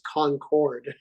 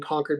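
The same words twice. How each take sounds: First: It is said the way outsiders say it. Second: It is said the local Massachusetts way. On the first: "Everybody else says Concord" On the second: "the only ones who pronounce it Concord is us here in Concord"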